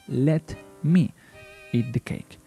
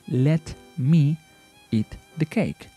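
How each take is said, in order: The two takes are said the same way.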